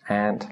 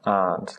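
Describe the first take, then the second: First: The vowel is the flat 'a' of 'ant'. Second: The vowel is the open 'ah' sound. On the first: "in America, these are pronounced as ant and laugh" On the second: "that's the R sound"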